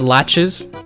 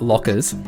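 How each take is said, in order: First: The middle consonant is a 'ch' sound. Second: The middle consonant is a 'k' sound. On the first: The speaker calls it right. "You actually pronounce the ch" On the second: The speaker calls it wrong. "It's not it's not lockers"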